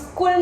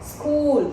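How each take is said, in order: First: The vowel after k is short. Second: The vowel after k is long. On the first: The speaker calls it wrong. "हम स्कूल नहीं बोलते" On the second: The speaker calls it right. "तो क पे stress डाल रहे हैं"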